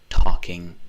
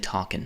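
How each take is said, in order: First: The word is said in a clean, careful way. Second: The word is said with a strong regional accent. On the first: This is the careful on-camera way of speaking. "I never say talking when I'm actually talking to people" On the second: This is how it is said in daily life. "I say talking"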